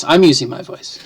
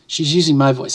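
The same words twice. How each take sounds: First: I'm punched, then falling away; stress on I'm. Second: Said in the usual way. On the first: Real, not acted. Speaker correcting whose voice it is, stress on I'm. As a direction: hit the word I'm.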